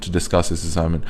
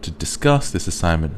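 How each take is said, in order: First: The words are said flat, without stress. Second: Three words stand out with clear stress. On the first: The speaker calls it wrong. "that would be wrong because there'd be no stress" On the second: The speaker calls it right. "these three words definitely are popping out at us"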